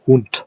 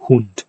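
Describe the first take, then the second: First: Hund as hunt, rising; German word Hund. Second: Hund with a final t, falling; German word Hund. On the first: Linguist showing final devoicing, says Hund again rising. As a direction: end Hund with a clear t and a rise. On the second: Linguist showing final devoicing, says Hund. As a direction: say Hund with a hard t at the end. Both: Shown as a demonstration. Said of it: "except word finally".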